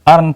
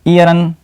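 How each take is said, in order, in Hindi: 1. इसकी शुरुआत साधारण 'er' ध्वनि से होती है। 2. इसकी शुरुआत 'ee-ya' ध्वनि से होती है। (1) "अर्न पढ़ते हैं" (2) "नहीं पढ़ते"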